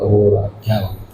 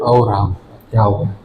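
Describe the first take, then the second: First: It is said with sorrow. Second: It is said with surprise.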